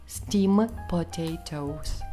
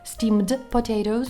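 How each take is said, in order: First: The d sound in steamed is dropped. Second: The d sound in steamed is pronounced.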